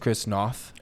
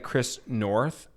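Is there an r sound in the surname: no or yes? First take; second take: no; yes. First: The surname is said without an r sound. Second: The surname is said with an r sound. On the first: The speaker calls it right. "and it's Chris Noth" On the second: The speaker calls it wrong. "I was saying the guy Chris North"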